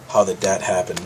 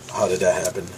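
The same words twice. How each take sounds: The two takes are said the same way.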